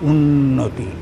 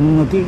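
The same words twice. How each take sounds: First: The n sound is held with a short gap. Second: The n sound glides on with no hold. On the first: The speaker calls it right. "এইটুকু gap দিতে হবে" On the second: The speaker calls it wrong. "তুমি উচ্চারণ করছো উন্নতি, মনে হচ্ছে নয় জফলা দিয়ে"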